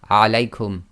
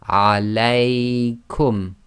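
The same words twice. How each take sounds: First: The middle diphthong is cut short to one beat. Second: The middle diphthong is held for two beats. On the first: The speaker calls it wrong. "You can't say" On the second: The speaker calls it right. "The diphthong must be too long, so you have to go"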